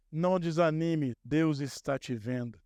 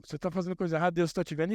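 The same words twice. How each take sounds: First: Encouraging. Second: Lightly accusing warning tone; a mild finger-wagging threat; mock threat. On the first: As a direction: lift up a discouraged listener gently. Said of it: "Eu vim pra te dar ânimo". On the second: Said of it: "em tom de, é, ameaça". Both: Shown as a demonstration.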